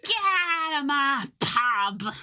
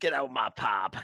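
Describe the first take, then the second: First: High, drawn-out British pub-landlord wail; mock British yell. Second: Mock British. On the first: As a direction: bawl it slowly in a caricature British accent. Playing an angry British pub landlord. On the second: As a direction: toss it off in caricature British, unhurried by volume. Echoing the landlord line more plainly.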